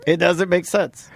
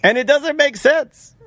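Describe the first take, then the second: First: Said in the usual way. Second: High, slow exaggerated disbelief. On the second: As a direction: stretch it out in mock disbelief.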